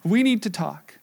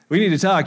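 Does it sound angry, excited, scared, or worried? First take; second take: excited; angry. First: It is said in an excited tone. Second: It is said in an angry tone.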